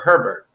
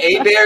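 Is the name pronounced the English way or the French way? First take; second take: English; French. First: It sounds like the English name Herbert. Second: It has a silent h and French vowels. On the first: The speaker calls it wrong. "the other way it's pronounced often, which is Sherbert or Herbert" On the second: The speaker calls it right. "Hébert is the correct way of saying it"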